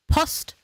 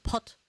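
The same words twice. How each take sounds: First: Post. with a clear s before the t, said louder; corrected Post. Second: Says Pot- with the s dropped; the slip Pot- instead of Post; wrong Pot. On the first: Streamer correcting her slip, loud clear Post. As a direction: stamp the fix: Post., s fully sounded. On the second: Streamer replaying her tongue-twister slip, Pot- without the s. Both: Shown as a demonstration. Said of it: "I said Pot".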